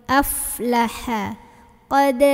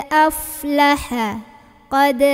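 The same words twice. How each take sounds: No difference in how they are said.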